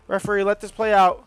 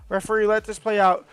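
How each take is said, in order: Both takes have the same delivery.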